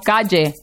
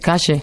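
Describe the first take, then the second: First: The double L sounds like a 'y'. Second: The double L sounds like 'sh', Argentine style.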